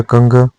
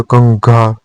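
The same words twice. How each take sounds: First: कंघ with short final a; incorrect form. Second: कंघा with long final aa; correct form. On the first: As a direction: cut कंघ short at the end. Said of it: "अशुद्ध है". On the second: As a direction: hold the last vowel of कंघा. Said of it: "शुद्ध है". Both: Shown as a demonstration.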